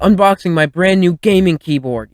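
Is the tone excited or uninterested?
excited. It is said with excitement.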